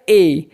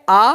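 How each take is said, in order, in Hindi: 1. Article एक पूरी, लंबी 'ay' ध्वनि है। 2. आर्टिकल एक छोटी, हल्की 'uh' ध्वनि है। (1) "ए का यूज़ हम तब करते हैं जब हमें सेंटेंस को एम्फेसाइज" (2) "आ कहलाता है वीक फॉर्म"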